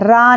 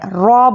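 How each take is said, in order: First: The letter name has a light, open vowel. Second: The letter name has a heavy, rounded vowel. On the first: The speaker calls it wrong. "रा नहीं बोलना है" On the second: The speaker calls it right. "रॉ को मोटा पढ़ना है, रॉ बोलना है"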